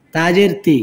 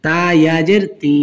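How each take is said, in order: First: Final তি with a short, quick vowel. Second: Final তি with a long held vowel; one-alif stretch. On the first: Teacher showing learners the quick reading, short final তি. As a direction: cut the last তি short. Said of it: "তাড়াতাড়ি হবে". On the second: Teacher showing learners the stretch, long final তি. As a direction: draw out the last তি. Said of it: "এখানে এক আলিফ টান হবে". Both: Shown as a demonstration.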